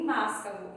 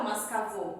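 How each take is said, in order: First: "mascavo" stressed on the first syllable MAS; wrong stress on MAS. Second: "mascavô" stressed on the last syllable VÔ; wrong final stress. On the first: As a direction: put the weight on MAS, not CA, in "mascavo". ("mascavo" com acento errado no "MAS") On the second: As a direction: put the weight on VÔ in "mascavô". ("mascavô" com acento errado no "VÔ") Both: Shown as a demonstration. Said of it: "Não falo mascavô e nem mascavo".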